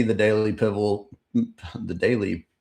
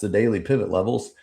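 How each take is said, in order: First: "pivot" slips into "pivol", then breaks off; tongue-tied stumble. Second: Said in the usual way. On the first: Real, not acted. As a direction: trip over "pivot", ending it in an L. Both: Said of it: "let me say that".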